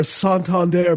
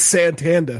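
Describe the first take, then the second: First: Santander said carefully as sahn-tahn-DAIR; proper Spanish-style pronunciation. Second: Santander said Boston-style as san-TAN-dah; Boston pronunciation. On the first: Naming the bank properly, Santander as sahn-tahn-DAIR. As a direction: open vowels and full final R in Santander. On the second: Mocking how locals name the bank, Santander as san-TAN-dah. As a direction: drop the final R in Santander. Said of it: "Also horrible in an accent". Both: Shown as a demonstration.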